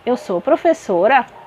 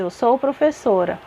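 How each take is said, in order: First: The voice rises at the end, a question. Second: The voice falls at the end, a statement.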